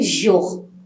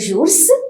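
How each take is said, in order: First: The word ends without any S sound. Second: The word ends with an audible S sound. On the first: The speaker calls it right. "It is only jour" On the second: The speaker calls it wrong. "but I'm not saying jours"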